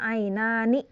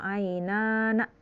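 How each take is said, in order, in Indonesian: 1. Huruf nun terakhir memiliki vokal i. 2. Huruf nun terakhir memiliki vokal a. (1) "harusnya ainani" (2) "na di situ"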